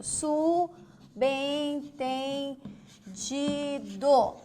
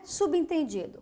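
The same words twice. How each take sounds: First: "Subentendido" very slowly as su, ben, ten, di, do; syllable by syllable. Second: Said in the usual way. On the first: Shown as a demonstration. Teacher writing the word alongside, very slow stretched syllables. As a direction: draw out every syllable of "Subentendido". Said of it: "Vou colocar aqui do ladinho". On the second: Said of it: "Vamos ver o subentendido?".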